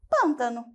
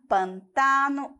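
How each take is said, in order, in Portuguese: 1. A tônica cai onde o português coloca. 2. A tônica cai onde o espanhol coloca. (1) "Em português" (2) "Nós vamos ter pantano"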